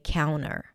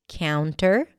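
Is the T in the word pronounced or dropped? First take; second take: dropped; pronounced. First: The T after the N is dropped. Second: The T after the N is pronounced.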